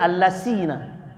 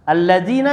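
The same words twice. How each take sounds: First: It is read with an s sound. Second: It is read with the standard consonant.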